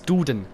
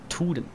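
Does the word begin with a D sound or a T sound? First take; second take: D sound; T sound. First: The word begins with a soft D sound. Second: The word begins with a hard T sound. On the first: The speaker calls it right. "man schreibt das mit D" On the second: The speaker calls it wrong. "das D am Anfang sagt einfach Tuden"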